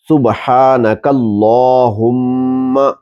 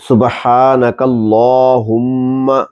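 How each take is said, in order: The two takes are said the same way.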